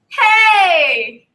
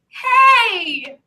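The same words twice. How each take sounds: First: It is a yell from the chest. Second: It is a whiny, crying sound.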